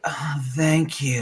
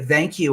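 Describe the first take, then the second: First: It is said in a suggestive, seductive tone. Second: It is said in a plain, polite tone.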